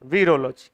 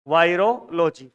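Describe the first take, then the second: First: The first syllable sounds like 'vee'. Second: The first syllable sounds like 'vai'. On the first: "वी का मतलब हो जाएगा वीरोलॉजी" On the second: "इसको ऐसे उच्चारण कई वायरोलॉजी कर लेते हैं"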